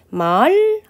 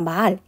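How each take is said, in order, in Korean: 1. 소리가 낮게 시작해서 올라가고 길어진다. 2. 소리가 평평하게 유지되고 말이 짧다. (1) "예전엔 말 하면서 낮았다가 높아지는 소리로" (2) "지금 우리가 말 이렇게 얘기하는데"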